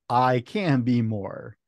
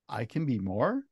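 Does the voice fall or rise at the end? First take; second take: fall; rise. First: It falls at the end like a statement. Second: It rises at the end like a question.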